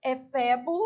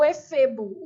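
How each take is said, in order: First: Efebo with open E, e-FÉ-bo; open vowel. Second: Efebo with closed E, e-FÊ-bo; closed vowel. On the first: Teacher showing students the first accepted pronunciation, open vowel. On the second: Teacher showing students the other accepted pronunciation, closed vowel. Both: Shown as a demonstration. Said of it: "a pronúncia pode ser feita tanto".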